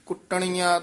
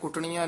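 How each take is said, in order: First: The word is said tightly and firmly. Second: The word is said loosely and softly. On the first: The speaker calls it right. "ਥੋੜਾ ਜਿਹਾ ਕਸ ਕੇ ਬੋਲਣਾ ਹੈ" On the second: The speaker calls it wrong. "ਨਹੀਂ ਕਹਿਣਾ"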